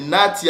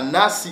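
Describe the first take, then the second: First: The middle consonant is a t sound. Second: The middle consonant is an s sound. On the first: "nati avec le tav" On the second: "le son du sin, du S"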